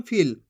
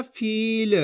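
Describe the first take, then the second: First: फील cut short, like फिल; short vowel. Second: फील with the ee stretched long; long vowel. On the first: Teacher shows how not to read it, फील with short i. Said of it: "ऐसे नहीं पढ़ेंगे अपन फील". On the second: Teacher shows the right reading, फील drawn out. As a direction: drag out the ई in फील. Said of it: "इसी तरीके से पढ़ना फील". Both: Shown as a demonstration.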